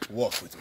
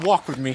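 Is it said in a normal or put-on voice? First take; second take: put-on; normal. First: It is said in a put-on breakfast voice. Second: It is said in his normal voice.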